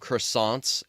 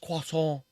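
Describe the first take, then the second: First: The word is said with a plain American accent. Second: The word is said with a thick French accent. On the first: "I used to call them croissants" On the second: "putting a r thick French accent on them"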